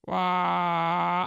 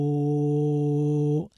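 First: A half-hearted imitated horror sting; a quick try at the scary movie sound effect; movie scare sound. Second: A longer, louder, lower imitated horror sting; movie scare sound. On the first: Describing the Nun's scariest sound effect, a weak first imitation. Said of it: "I can't even do it like he does". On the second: Second try at the Nun's scare sound, doing it better. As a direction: commit fully to the scary movie sound effect. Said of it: "Okay, I did pretty good".

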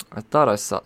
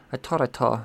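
First: Said in the usual way. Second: THOUGHT and SAW both begun with a T; playful baby talk. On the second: Pretend. Host hunting for a character's name, baby-talk T sounds in "thought" and "saw". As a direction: say "thought" as "tawt" and "saw" as "taw".

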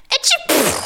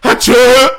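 First: Tiny sneeze, very high pitched; a small dainty achoo; high squeaky sneeze. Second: Loud fake sneeze, high and sharp. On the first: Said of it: "I was expecting". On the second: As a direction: belt out a big sneeze. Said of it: "am I pronouncing it right?". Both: Shown as a demonstration.

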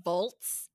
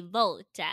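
First: Said in the usual way. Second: "volta" with an added "-ta" ending; mock Italian ending. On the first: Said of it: "Instead of saying volts". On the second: Shown as a demonstration. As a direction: say "volta" slowly, as two syllables. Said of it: "they say volta".

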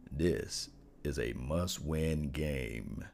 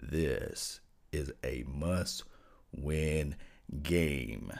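First: Slow, low must-win; deep voice. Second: Deepest bass, very slow and drawn out; extremely deep bass voice. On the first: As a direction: drop the voice way down, slow. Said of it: "I'm gonna get into my deepest voice". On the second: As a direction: sink into your lowest bass, dragging each word. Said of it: "I'm gonna get into my deepest voice I can let you guys hear". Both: Shown as a demonstration.

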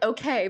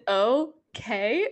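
First: Said in the usual way. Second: Imitated Spanish-accented okay. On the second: Mimicking how Grace said okay last night, Spanish accent. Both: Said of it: "in Spanish".

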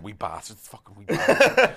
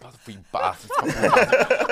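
First: Mum swearing. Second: Mum cursing the wee lads once more; mum swearing again. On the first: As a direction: mimic mum cursing the wee lads. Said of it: "so she's going". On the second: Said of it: "She's like". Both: Retold or imitated.

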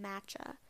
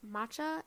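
First: "matcha" with a short flat a, MATCH-a; second pronunciation. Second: "matcha" with a broad ah, MAH-cha; first pronunciation. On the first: Podcaster showing listeners the other way she has heard, second pronunciation. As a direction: say "matcha" to rhyme with "catch a". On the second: Podcaster showing listeners one of two ways she has heard, first pronunciation. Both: Shown as a demonstration. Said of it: "I've heard it pronounced two ways".

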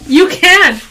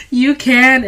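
First: Emphatic loud insistence. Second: Said in the usual way. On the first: Real, not acted. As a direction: shout it back, insisting. Sisters arguing about bullying.

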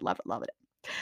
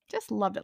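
First: Soft whispered repeat, almost to herself; whispered gush. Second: Said in the usual way. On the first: Real, not acted. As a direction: breathe the words out in a whisper. Gushing repeat, breathy whisper.

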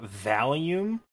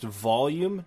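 First: "volume" with a flat "a", like "val-yoom"; mispronounced volume. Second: Said in the usual way. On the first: Shown as a demonstration. Confessing a childhood mistake, "volume" said as "val-yoom". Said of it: "not volume". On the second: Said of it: "is pronounced volume".

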